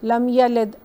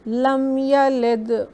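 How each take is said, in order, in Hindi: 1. अंतिम d बिना किसी गूंज के सादा रुक जाता है। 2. अंतिम d में हल्की सी गूंजती हुई उछाल है। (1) "ऐसे नहीं पढ़ेंगे" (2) "थोड़ा सा एकोइंग साउंड देंगे"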